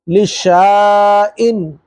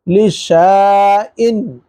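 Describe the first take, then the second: First: The middle vowel is a long 'aa' sound. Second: The middle vowel is a long 'aa' sound.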